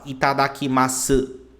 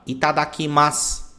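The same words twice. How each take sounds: First: The final u is clearly pronounced. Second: The final u is dropped, ending in s. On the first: The speaker calls it wrong. "você não vai falar itadakimasu" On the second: The speaker calls it right. "quando a palavra termina com s"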